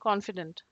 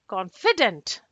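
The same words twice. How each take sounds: First: All syllables are said flat, with no stress. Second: The pitch rises on the syllable 'fi'. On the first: "Very blank" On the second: "I'm again giving a rise on F I"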